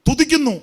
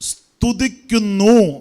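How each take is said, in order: First: The word begins with a t sound. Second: The word begins with an st sound. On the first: The speaker calls it wrong. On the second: The speaker calls it right.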